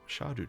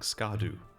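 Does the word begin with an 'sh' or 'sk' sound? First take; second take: sh; sk. First: The word begins with an 'sh' sound. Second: The word begins with an 'sk' sound. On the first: The speaker calls it right. "it's pronounced shadu tree" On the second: The speaker calls it wrong. "It sounds a lot better than saying skadu all the time"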